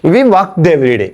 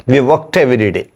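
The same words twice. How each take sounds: First: Slow dictation. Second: Said in the usual way. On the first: Shown as a demonstration. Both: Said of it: "അപ്പോ ഇവിടെ നോക്കുക".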